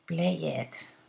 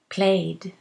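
First: The ending is said as an extra syllable. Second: The ending joins the word as one syllable. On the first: The speaker calls it wrong. "Not play it. Ugh" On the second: The speaker calls it right. "we never pronounce the e in the ED ending"

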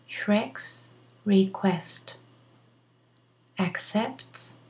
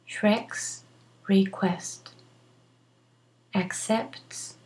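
Both takes have the same delivery.

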